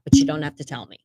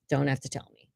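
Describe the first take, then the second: First: Said in the usual way. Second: Softer, lower echo of the line before; a softer aside to herself; quiet repeat. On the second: Real, not acted. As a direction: say "Don't have to tell me" again under your breath, softer and lower. Muttered repeat of previous line.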